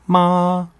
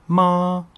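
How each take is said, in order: No difference in how they are said.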